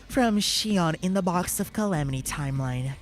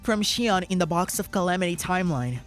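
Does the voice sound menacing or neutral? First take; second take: menacing; neutral. First: The voice is put on to sound menacing. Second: The voice is plain and not menacing.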